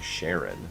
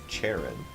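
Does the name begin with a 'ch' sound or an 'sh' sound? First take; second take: sh; ch. First: The name begins with a soft 'sh' sound. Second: The name begins with a 'ch' sound. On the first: "it sounds like Sharon" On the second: "I get there's a ch"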